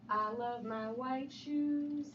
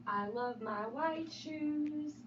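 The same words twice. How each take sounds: The two takes are said the same way.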